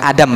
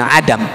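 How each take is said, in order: First: It begins with a plain vowel, no throat sound. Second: It begins with a tight throaty ain sound. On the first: The speaker calls it wrong. "Bukan adam" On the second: The speaker calls it right. "Pakai ain"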